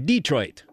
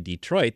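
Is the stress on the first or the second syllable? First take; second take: first; second. First: The stress falls on the first syllable. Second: The stress falls on the second syllable. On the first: The speaker calls it wrong. "they say Detroit. ... it's putting the inflection, the stress on the wrong" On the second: The speaker calls it right. "So they don't say Detroit"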